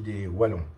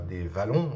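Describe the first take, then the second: First: The word begins with a W sound. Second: The word begins with a V sound. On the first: The speaker calls it right. "on dit" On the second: The speaker calls it wrong. "On ne dit pas"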